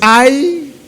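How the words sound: It is said in a happy, delighted tone. The speaker feels joy. "quando tu tá feliz? Ai, que felicidade"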